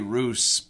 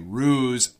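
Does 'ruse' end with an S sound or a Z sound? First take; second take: S; Z. First: The word ends with a hissing S sound. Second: The word ends with a buzzing Z sound. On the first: "Some people might say ruse" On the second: "almost always we say ruse. It has a Z pronunciation"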